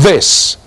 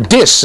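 First: The word begins with a th sound. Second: The word begins with a plain d sound.

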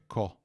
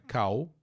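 First: The vowel is an O sound. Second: The vowel is not an O sound. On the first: The speaker calls it right. "a vogal é O. ... é co" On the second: The speaker calls it wrong. "Não é cal"

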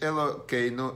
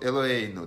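First: The middle consonant is a k sound. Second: The middle consonant is a soft h sound.

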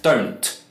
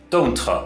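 First: The word ends cleanly on its final consonant. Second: An extra vowel syllable follows the final consonant. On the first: The speaker calls it right. "It just ends on that sound" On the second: The speaker calls it wrong. "Some Chinese people will say"

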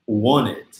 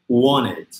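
Both takes have the same delivery.

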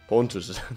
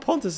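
First: The voice stays steady while saying the word. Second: The voice cracks while saying the word. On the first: The speaker calls it right. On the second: The speaker calls it wrong.

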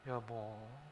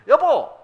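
First: It sounds romantic and affectionate. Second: It sounds simply joyful and happy.

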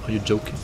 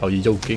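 First: Joking starts with a normal J sound. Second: Joking starts with a Y sound, Swedish-style.

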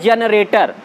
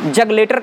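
First: The word sounds like 'jenaretar', with n and r. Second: The word sounds like 'jag letar', with g and l. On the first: The speaker calls it right. "वो शब्द है जनरेटर" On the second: The speaker calls it wrong. "जग लेटर कहते हैं, लेकिन जग लेटर है नहीं"

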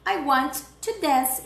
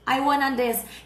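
First: Want and to are said as separate full words. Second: Want and to are blended into one word, wanna. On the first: "em inglês o verbo querer é want" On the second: "esse wanna é o want mais o to"

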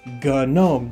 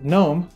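First: The initial G is sounded before the N. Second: The initial G is silent before the N. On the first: It names the desktop software. "The G in GNOME stands for GNU" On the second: It names the mythical creature. "It's a mythical creature"

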